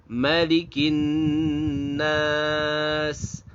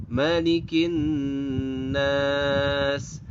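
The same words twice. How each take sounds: The two takes are said the same way.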